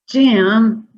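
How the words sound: The word is said in a frustrated voice. "in a very frustrated way"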